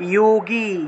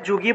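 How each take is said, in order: First: The word begins with a y sound. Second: The word begins with a j sound. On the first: This is the Sanskrit pronunciation. "সংস্কৃতে উচ্চারণ করব যোগী" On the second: This is the Bengali pronunciation. "বাংলায় যুগী বলা হয়"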